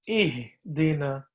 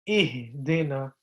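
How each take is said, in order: The two takes are said the same way.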